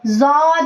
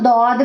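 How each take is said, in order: First: The word begins with a z sound. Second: The word begins with a d sound. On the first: "और इसको आप जौद भी पढ़ सकते हैं" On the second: "ये इसको आप दौद भी पढ़ सकते हैं"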